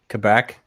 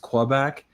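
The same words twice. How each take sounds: First: It is said the relaxed local way. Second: It is said in a careful overpronounced way. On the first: This is how people living there say it. The speaker calls it right. "in Quebec they they call it Quebec" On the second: Locals will stare at someone who says it this way. The speaker calls it wrong. "if you overpronounce it as Quebec"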